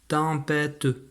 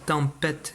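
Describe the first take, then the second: First: The word ends with an extra final vowel sound. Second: The word ends without a final vowel sound. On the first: The speaker calls it wrong. "et non pas tempête" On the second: The speaker calls it right. "j'ai bien dit tempête"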